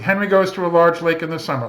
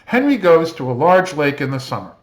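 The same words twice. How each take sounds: First: It is read in a flat, mechanical way. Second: It is read with some lively pitch variation. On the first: "the child might read it kind of robotically" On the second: "I'm reading it with a little bit of inflection"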